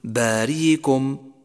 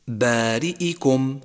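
First: باريكم said slowly with a y glide replacing the hamza; slow demo of باريكم, hamza turned to y; softened hamza mistake. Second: بارئكم said slowly with a distinct glottal stop before the i; slow, careful بارئكم with the hamza intact; clear hamza. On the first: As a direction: glide through باريكم with no glottal stop. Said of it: "فلا تقل". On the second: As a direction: make the hamza in بارئكم plainly heard. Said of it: "يجب بيانها إذا انضمت أو انكسرت". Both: Shown as a demonstration.

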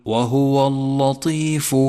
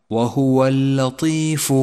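First: وهو اللطيف with a wrongly heavy ل, drawn out slowly; common mispronunciation. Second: وهو اللطيف with a thin, light ل, drawn out slowly; correct light lam. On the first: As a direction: chant وهو اللطيف slowly, thickening the لام as a mistake. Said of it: "فهذا خطأ شائع". (تلاوة خاطئة لـ«وهو اللطيف» بتفخيم اللام) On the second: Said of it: "والصواب ترقيق حرف اللام". (تلاوة صحيحة لـ«وهو اللطيف» بترقيق اللام) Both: Shown as a demonstration.

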